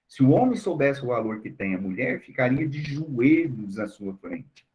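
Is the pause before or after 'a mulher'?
after. The pause comes after 'a mulher'.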